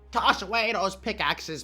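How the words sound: It is said in an imitated character voice.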